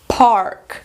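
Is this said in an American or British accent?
American. An American accent with a shorter vowel. "Em americano"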